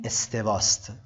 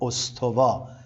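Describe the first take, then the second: First: The word is said with Arabic pronunciation. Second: The word is said with Persian pronunciation. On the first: The speaker calls it right. "این استواست" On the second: The speaker calls it wrong. "ما تو فارسی به شکل غلط گاهی از اوقات این کلمه رو به استوا تلفظ میکنیم"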